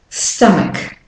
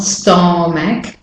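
First: "stomach" as "STUH-muk", A reduced to schwa; weak second vowel. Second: "stomach" as "stom-ack", both vowels full; mispronounced word. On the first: Teacher shows learners the correct word, weak final vowel. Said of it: "the A is the weak form". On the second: Teacher shows learners what not to say, spelling pronunciation. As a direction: say "stomach" as spelt, with O and A sounded. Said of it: "So it's not stomach". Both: Shown as a demonstration.

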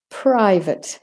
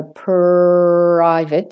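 First: Said in the usual way. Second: "private" with a long held r after the p; slowed-down R. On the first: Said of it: "afterwards speed up again". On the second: Shown as a demonstration. Teacher slows it to get it in, long r in "private". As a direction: hold the r in "private", louder. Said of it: "have to slow it down".

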